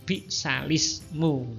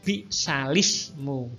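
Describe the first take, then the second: No difference in how they are said.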